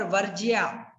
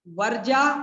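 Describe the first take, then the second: First: वर्ज्या with "jiyaa" ending; contrasted correct form. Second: वर्जा with straight "jaa"; no y-glide at the end of वर्जा; contrasted mistaken form. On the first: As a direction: open out the y-glide in वर्ज्या. (वर्ज्या, साफ़ 'ज्या' के साथ) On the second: (वर्जा, सीधा 'जा') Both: Shown as a demonstration. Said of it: "दोनों में अंतर है".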